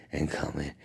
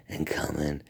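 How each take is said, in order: Both takes have the same delivery.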